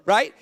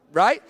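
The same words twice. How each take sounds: The two takes are said the same way.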